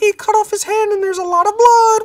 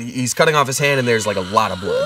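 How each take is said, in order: First: It is said in a cheerful tone. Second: It is said in a scary tone.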